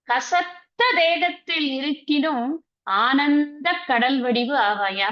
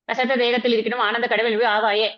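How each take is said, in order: First: It is recited slowly with deep feeling. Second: It is recited flatly and hurriedly without feeling.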